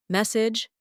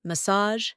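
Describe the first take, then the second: First: "Message" with a j ending, first syllable stressed; hard word ending. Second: "Massage" with soft zh, second syllable stressed; soft word ending. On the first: Teacher comparing two words, j ending in "Message". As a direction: say "Message" as MESS-ij. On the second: Teacher comparing two words, soft zh in "Massage". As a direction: say "Massage" as muh-SAHZH. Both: Shown as a demonstration. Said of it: "Compare these words".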